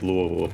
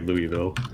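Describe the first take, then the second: First: It is pronounced the way local residents say it. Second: It is pronounced in the standard, non-local way. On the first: This is how people who live there say it. "The people that live there say it like Louisville" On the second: This is the proper way to say it. "I think the correct way is probably Louisville"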